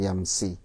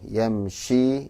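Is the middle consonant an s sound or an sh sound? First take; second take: s; sh. First: The middle consonant is an s sound. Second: The middle consonant is an sh sound. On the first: The speaker calls it wrong. "jangan yamsi" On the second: The speaker calls it right. "Yamshi ya"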